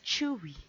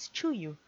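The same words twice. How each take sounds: First: The name is said as it is heard in interviews. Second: The name is said as a non-Korean speaker reads it. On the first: The speaker calls it right. "quickly learned that it's pronounced as Tzuyu" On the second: The speaker calls it wrong. "like a lot of other people that don't speak Korean, I pronounced it as Tzuyu"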